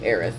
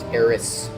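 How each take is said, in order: First: The name ends with a th sound. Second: The name ends with an s sound. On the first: It follows an English reading of the name. "appropriately read it with a th" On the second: It follows a Japanese reading of the name. "would be pronounced Eris with a su sound at the end"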